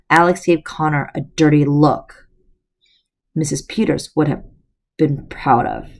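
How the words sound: The sentence is read awkwardly, with clumsy phrasing.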